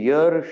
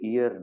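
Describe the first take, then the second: First: The word begins with a y sound. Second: The word begins with an ee vowel. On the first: The speaker calls it right. "એ યર શબ્દ છે" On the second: The speaker calls it wrong. "ઈયર નથી"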